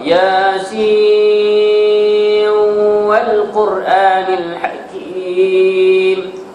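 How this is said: The first word runs straight into the next.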